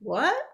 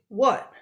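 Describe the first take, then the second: First: The pitch rises at the end. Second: The pitch falls at the end.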